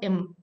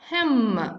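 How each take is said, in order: First: The word is reduced, dropping the h. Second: The word is said fully with its h. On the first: "As a weekend form, we should pronounce it like im" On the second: "the strong form"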